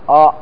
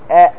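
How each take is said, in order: First: The sound is heavy, with a thick, dark quality. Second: The sound is light, with a thin, clear quality. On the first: The speaker calls it wrong. "ما تقول آ آ، هذا مغلظة" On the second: The speaker calls it right. "لكن تقول آ"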